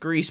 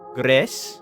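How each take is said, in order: First: It sounds like the English word Greece. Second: It is said the Spanish way, not like Greece. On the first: This is the form the developers announced. "It is pronounced Greece" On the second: This follows the Spanish word for gray. "It's the Spanish word for gray... something along the lines of Gres"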